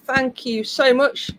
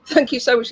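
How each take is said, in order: First: Wearing a retainer. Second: Retainer in, careful words; slightly lisped through retainers; wearing a retainer. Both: Real, not acted. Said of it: "I can't talk today".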